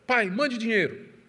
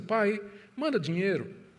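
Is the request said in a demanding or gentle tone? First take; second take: demanding; gentle. First: It is said as a rude, demanding order. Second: It is said as a soft, pleading request.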